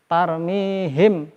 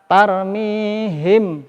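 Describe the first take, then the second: No difference in how they are said.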